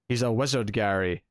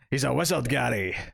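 First: It is said in his plain voice. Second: It is said in a Hagrid impression.

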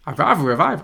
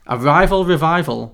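First: It is read in a put-on character voice. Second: It is read in the speaker's normal voice.

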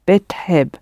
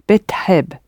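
Both takes have the same delivery.

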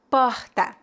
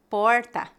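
First: The R is strong, as in Rio. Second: The R is retroflex, as in inland São Paulo.

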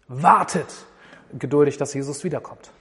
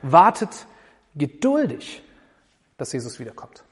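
First: The stress falls on the word wartet. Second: The stress falls on the word geduldig. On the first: The point is that one should wait. "Man kann das Warten betonen" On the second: The point is that one should be patient. "Oder das Geduldigsein"

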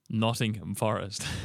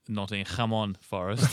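First: It is said in a plain English accent. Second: It is said in a put-on Portuguese accent.

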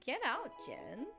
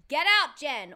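First: It is said in a flirty tone. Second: It is said in a serious tone.

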